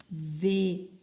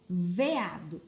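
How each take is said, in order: First: "Veado" split into ve, a, do with pauses; syllable by syllable. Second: Said in the usual way. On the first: Shown as a demonstration. Teacher finding the missing first syllable, "Veado" broken up slowly. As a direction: separate each syllable of "Veado". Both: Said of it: "está faltando a primeira sílaba".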